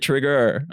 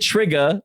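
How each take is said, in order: First: The word ends in a full 'er' sound. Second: The word ends in an open 'ah' sound. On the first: "I would finish the E R in most words" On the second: "I wouldn't end things with an A"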